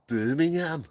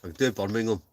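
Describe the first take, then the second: First: "Birmingham" said high in a Brummie accent; a quick Brummie take on "Birmingham". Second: Said in the usual way. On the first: Shown as a demonstration.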